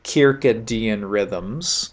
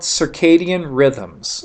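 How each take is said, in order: First: Circadian is said with a Latin-sounding pronunciation. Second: Circadian is said the common English way. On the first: "if somebody really wants to get Latin on you" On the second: "Circadian is probably the most common pronunciation for it"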